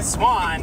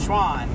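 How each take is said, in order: First: The word begins with a plain s sound. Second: The word begins with a sh sound. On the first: The speaker calls it right. "It's Swan" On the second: The speaker calls it wrong. "You said it like the ice cream place Schwann's"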